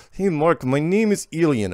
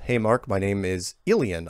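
First: Higher, louder put-on Russian accent; terrible Russian accent. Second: Said in the usual way. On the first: Host reading a short listener email from Ilian, terrible Russian accent. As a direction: ham up a bad Russian accent. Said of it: "I got to do my accent". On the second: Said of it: "No, I am gonna read this".

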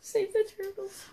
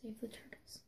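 First: High little squeaky voice; high put-on voice. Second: Hushed, unvoiced whisper. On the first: Contestant repeats the plea in a high put-on voice. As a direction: pitch it way up, playfully. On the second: Contestant slips a plea into the sign-off, whispered. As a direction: slip it in as a whisper.

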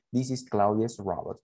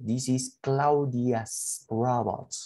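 First: Said in the usual way. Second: Very slow, word by word for the class; teacher modelling English slowly; slow model sentence. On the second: Shown as a demonstration. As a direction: spell it out slowly so students can copy. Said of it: "En este caso".

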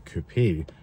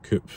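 First: "coupe" said as "koo-PAY"; two-syllable coupe. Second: "coupe" said as "koop"; one-syllable coupe. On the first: Vlogger giving both regional names, "coupe" as "koo-pay". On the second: Vlogger giving both regional names, "coupe" as "koop". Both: Shown as a demonstration. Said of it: "depending what part of the world".

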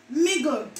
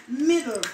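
First: "Middle" said as migo, g for d; Jamaican pronunciation. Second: Said in the usual way. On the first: Shown as a demonstration. Showing viewers the Jamaican "Middle", migo.

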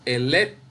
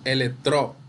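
First: "electro" said e-LEC-tro, pausing after LEC; e-LEC... tro, lifting LEC; stress on middle syllable. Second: "electro" wrongly said elec-TRO; elec-TRO, weight on the final syllable; stress on last syllable. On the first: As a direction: hold up LEC in "electro", then drop TRO. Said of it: "decimos electro". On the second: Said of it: "no decimos electro". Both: Shown as a demonstration.

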